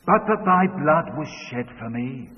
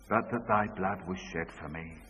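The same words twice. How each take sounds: First: Louder leading line; daughter's prompting line; child leading the verse. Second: Lower, softer echo of the line; father's quiet echo. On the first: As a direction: say it clearly for him to repeat. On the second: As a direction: repeat it back subdued. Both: Retold or imitated. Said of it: "say this after me".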